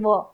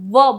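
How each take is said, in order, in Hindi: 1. यह ध्वनि दोनों होंठों से बनती है, दाँत नहीं लगते। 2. यह ध्वनि निचले होंठ के दाँतों को छूने से बनती है। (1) "जनरली लोग क्या बोलते हैं? व। अब क्या है? अशुद्ध है" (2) "हम व बोलते हैं ... ओष्ठ और दंत ... स्पर्श करते हैं"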